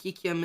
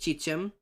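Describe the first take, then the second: First: The words begin with a k sound. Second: The words begin with a ch sound. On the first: "Ki Kim is another way to say it" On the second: "a X sometimes can be a bit of a chi noise"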